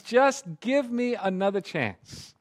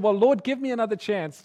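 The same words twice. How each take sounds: First: Slow begging plea. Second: Begging prayer. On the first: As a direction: stretch each word as a last appeal. Grandpa repeats the plea slower. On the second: Grandpa begs for another chance. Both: Retold or imitated.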